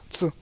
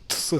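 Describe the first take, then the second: First: "T" as a short single "tsuh"; one fused sound. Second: "Ts" pulled apart into t and a long s; drawn-out, separated "Ts"; wrong split sound. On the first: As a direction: say "T" as a quick fused ts. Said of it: "it's T". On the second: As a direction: say "Ts" as two sounds, "t-sss". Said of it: "it's not Ts". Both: Shown as a demonstration.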